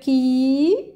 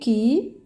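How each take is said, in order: First: The vowel is long. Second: The vowel is short. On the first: "mais c'est pour dire qui, j'ajoute un petit ya" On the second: "ça c'est qui"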